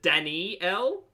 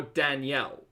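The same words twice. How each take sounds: First: Danielle in three beats, dan-EE-ell, rising; extra middle sound. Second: Danielle in two beats, dan-YELL, falling; no extra sound. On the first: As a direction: stretch out the "ee" inside Danielle. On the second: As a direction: skip the middle vowel in Danielle. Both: Shown as a demonstration. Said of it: "is there an extra sound in there?".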